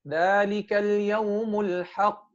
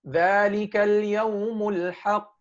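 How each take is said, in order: Both takes have the same delivery.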